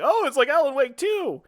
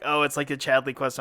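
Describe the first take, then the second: First: High, swooping eager delight; light up with glass-half-full enthusiasm; upbeat optimist. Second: Low, subdued mock of the cohost; unenthused imitation. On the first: Acted. Optimist cheering up his cohost about the trip, excited. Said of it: "I'm the more half glass full". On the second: Co-host imitating his partner's downbeat take, unenthused. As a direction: imitate him with low, unimpressed energy. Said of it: "more half glass full kinda guy".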